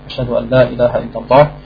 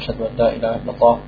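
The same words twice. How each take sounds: First: The phrase is said loudly. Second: The phrase is said quietly. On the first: "und dann laut" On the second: "und danach leise"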